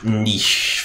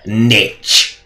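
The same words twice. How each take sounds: First: It is said the non-American way. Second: It is said the American way.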